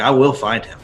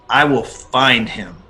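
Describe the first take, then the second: First: It is said with less conviction. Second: It is said with strong, intense conviction.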